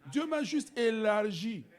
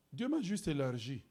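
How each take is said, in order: First: "m'a" lifted, slow and higher; emphatic repeat. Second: Said in the usual way. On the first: Shown as a demonstration. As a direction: stretch out "Dieu m'a juste élargi". ("m'a" appuyé, lent et plus haut) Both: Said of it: "répétition appuyée".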